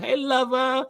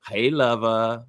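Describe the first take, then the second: First: "Hey" pitched way up, playful; high hey lover. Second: "Hey, lover" drawn out slow and low. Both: Retold or imitated. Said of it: "She's like".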